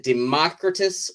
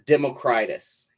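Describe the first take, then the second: First: "Democritus" as de-MOCK-ri-tus, stressed on MOCK; first pronunciation option. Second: "Democritus" as demo-CRY-tus, long i; second pronunciation option. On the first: Writer setting out the disputed name, "Democritus" as de-MOCK-ri-tus. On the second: Writer offering the rival reading, "Democritus" as demo-CRY-tus. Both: Shown as a demonstration. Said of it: "is a point of contention".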